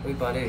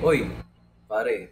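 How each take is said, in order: First: It is said in a calm, gentle tone. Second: It is said in a harsh, confrontational tone. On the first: The speaker raises an issue without hostility. The speaker calls it right. "say calmly" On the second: The speaker is picking a fight. The speaker calls it wrong. "pero hindi yung like"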